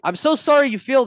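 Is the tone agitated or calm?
agitated. The voice sounds heated and matches an angry energy. The conflict escalates. The speaker calls it wrong. "if someone's yelling at you and you're going"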